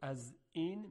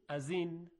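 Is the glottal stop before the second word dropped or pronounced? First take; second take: pronounced; dropped. First: A clear glottal stop separates the two words. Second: The glottal stop is dropped and the words run together. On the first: "به جای اینکه بگیم" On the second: "یعنی اونو خیلی راحت تلفظ میکنیم"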